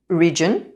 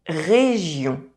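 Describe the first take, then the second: First: The R is made with the tongue tip raised. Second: The R is made at the back of the throat.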